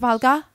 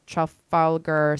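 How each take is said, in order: First: It is said in a put-on British accent. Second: It is said in a plain American accent. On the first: The speaker calls it right. "is that better?" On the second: The speaker calls it wrong. "you didn't say it with an accent"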